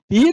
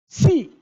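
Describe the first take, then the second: First: The syllable begins with a p sound. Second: The syllable begins with an s sound. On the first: The speaker calls it wrong. "pi não" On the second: The speaker calls it right.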